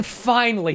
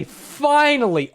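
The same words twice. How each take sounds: First: Said in the usual way. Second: FINALLY stretched out, high and slow; drawn-out FINALLY. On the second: Real, not acted. Storyteller ending his lonely wait in the garage, drawn-out FINALLY. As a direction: draw out FINALLY with relief at the long wait. Repeats word for comic emphasis.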